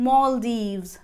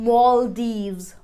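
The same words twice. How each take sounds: No difference in how they are said.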